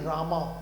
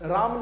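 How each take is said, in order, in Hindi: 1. नाम का अंत दीर्घ 'aa' स्वर से होता है। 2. नाम के अंत में दीर्घ स्वर नहीं है। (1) "अ की मात्रा को आ करके बोलते हैं" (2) "अ की मात्रा को आ करके बोलते हैं"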